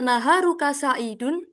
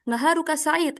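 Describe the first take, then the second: First: The last word ends with a full '-un' case ending. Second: The last word ends on a bare final consonant.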